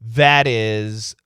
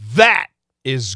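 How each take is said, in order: First: The T is a quick D-like flap. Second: The T is stopped, with a catch. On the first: It is said in an ordinary way. "we're going to get what we call a flap T" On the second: Something is being emphasized. "we'll stop the T"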